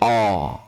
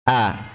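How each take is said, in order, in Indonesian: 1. Vokalnya terdengar tebal, gelap, seperti o. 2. Vokalnya terdengar tipis dan terang. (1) "Jangan dibaca tebal. ... Ini salah" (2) "Hurufnya tipis ya"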